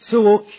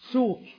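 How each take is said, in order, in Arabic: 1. يتبع صوت w حركة. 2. لا يتبع صوت w أي حركة. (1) "بدل سوك" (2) "ويجوز التخفيف بالتسكين فيقال سوك"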